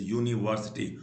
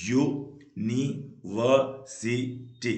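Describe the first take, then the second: First: Said in the usual way. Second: university very slow, in five separate beats; syllable by syllable. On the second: Shown as a demonstration. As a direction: clear gaps between all five syllables of university. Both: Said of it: "पांच syllable होते हैं".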